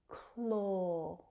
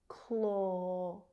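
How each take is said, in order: The two takes are said the same way.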